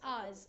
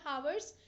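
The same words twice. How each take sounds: First: The word begins with a vowel, h silent. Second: The word begins with an audible h sound. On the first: The speaker calls it right. "H here is pronounced as ours. It is a silent" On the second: The speaker calls it wrong. "It's not ours"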